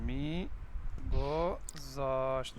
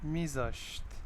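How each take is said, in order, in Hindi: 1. क्रिया पूरी बोली गई है, एक-एक अक्षर करके। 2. क्रिया सिकुड़कर एक छोटे शब्द में बोली गई है। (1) "अब इसको स्पोकन करें।" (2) "और सिंपल कर सकते हैं"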